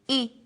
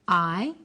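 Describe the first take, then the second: First: It is a short vowel sound. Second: It is a long vowel sound. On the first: "firstly the short vowel sounds" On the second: "Then the long vowel sounds"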